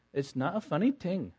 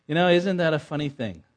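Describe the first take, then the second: First: Put-on light child's Indian accent on funny. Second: Said in the usual way. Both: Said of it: "in her little Indian accent".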